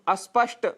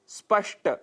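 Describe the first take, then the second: First: An extra vowel is added before the cluster. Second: The word begins directly with the consonant cluster. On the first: The speaker calls it wrong. "जिसकी जगह हम अस्पष्ट यह उच्चारण कर बैठते हैं" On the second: The speaker calls it right. "शब्द है स्पष्ट"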